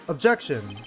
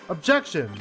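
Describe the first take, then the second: The two takes are said the same way.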